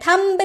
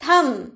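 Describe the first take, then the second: First: The final b sound is pronounced. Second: The final b sound is silent. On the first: The speaker calls it wrong. "थंब नहीं बोलते हैं" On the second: The speaker calls it right. "थम बोलते हैं"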